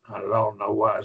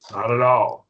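First: Said in the usual way. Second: "Not at all" hit loud on "all"; strong negative. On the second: Shown as a demonstration. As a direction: stamp down on "all" with a falling tune. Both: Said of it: "very strong negative".

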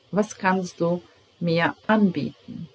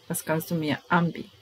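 First: Model sentence. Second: Quicker, softer repeat; natural speed repeat; repeat at pace. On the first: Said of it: "teacher models sentence". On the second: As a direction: run through it at normal speed. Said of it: "teacher repeats faster". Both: Shown as a demonstration.

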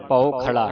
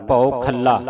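First: ਭਉ ਖਲਾ with a light, single ਲ; common misreading. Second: ਭਉ ਖੱਲਾ with a heavy, doubled ਲ; heavy pronunciation. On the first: Teacher quoting congregations' mistake, single ਲ in ਖਲਾ. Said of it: "ਕਈ ਸੰਗਤਾਂ ਨੂੰ ਖਲਾ ਪੜ੍ਹ ਜਾਂਦੀਆਂ ਨੇ". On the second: Teacher correcting the class, heavy doubled ਲ in ਖੱਲਾ. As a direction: lean on the long ਲ in ਖੱਲਾ. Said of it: "ਇਹ ਭਾਰਾ ਉਚਾਰਨ ਕਰਨਾ ਹੈ". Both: Shown as a demonstration.

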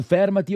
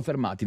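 First: "fermati" stressed FER-ma-ti; "fermati" as FÈR-ma-ti; stress on first syllable. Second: "fermati" stressed fer-MA-ti; stress on middle syllable. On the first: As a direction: lean on the opening syllable of "fermati". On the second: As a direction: put the weight on "ma" in "fermati". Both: Shown as a demonstration. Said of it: "non lo metti l'accento".

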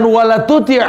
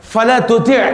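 First: "wala tuti'" with an opening w sound, high and loud; "wala tuti'" raised, with "wa" for the first syllable; contrasted wrong word. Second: "fala tuti'" with an opening f sound, high and firm; "fala tuti'" raised, with "fa" for the first syllable; corrected word. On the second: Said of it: "Bukan "wala tuti'". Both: Shown as a demonstration.

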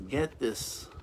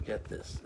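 First: Said in the usual way. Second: Whispered repeat. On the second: Shown as a demonstration. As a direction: whisper get this. Repeated urging dropped to a whisper.

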